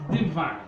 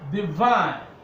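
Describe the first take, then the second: First: The stress is on the first syllable. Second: The stress is on the second syllable. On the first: The speaker calls it wrong. "not divine" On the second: The speaker calls it right. "stress is placed here"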